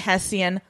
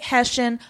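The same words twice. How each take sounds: First: The middle consonant sounds like 'st'. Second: The middle consonant sounds like 'sh'. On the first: This is the speaker's own pronunciation. "I say Hessian" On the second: This is the other person's pronunciation. "you say Hessian"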